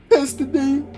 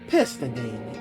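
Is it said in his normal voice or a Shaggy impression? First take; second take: Shaggy impression; normal voice. First: It is said in a Shaggy impression voice. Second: It is said in his normal voice.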